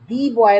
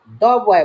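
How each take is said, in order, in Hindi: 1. 'the' शब्द को 'dee' बोला जाता है। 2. 'the' शब्द को 'duh' बोला जाता है। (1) "दी बॉय नहीं बोलेंगे" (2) "द बॉय बोलेंगे"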